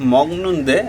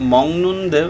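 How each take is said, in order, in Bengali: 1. 'neunde' এর আগে একটি কঠিন g ধ্বনি আছে। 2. 'neunde' এর আগে একটি অনুনাসিক ng ধ্বনি আছে।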